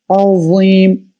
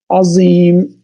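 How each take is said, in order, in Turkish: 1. Z kalın ve peltektir, dil dişlerin arasındadır. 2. Z keskin, sade bir ıslık sesidir. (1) "kalın ve peltek olacak" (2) "Yani keskin Z gibi okuyabilir"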